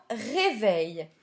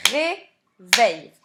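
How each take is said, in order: First: Said in the usual way. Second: "Réveil" loudly split as ré-veil; syllable by syllable. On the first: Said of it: "il s'agit du mot réveil". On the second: Shown as a demonstration. Teacher cutting the word in two, "Réveil" as loud separate syllables. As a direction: punch both syllables of "Réveil" with a gap. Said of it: "Je l'ai donc coupé en syllabes".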